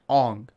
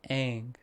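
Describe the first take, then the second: First: The name is said in an altered pronunciation. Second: The name is said in its original pronunciation. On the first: This is how the film said the name. The speaker calls it wrong. "they mispronounced their names. So his name is Ong" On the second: This is how the name is meant to be said. The speaker calls it right. "their names were like Aang"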